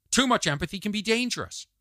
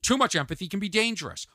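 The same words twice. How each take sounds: The two takes are said the same way.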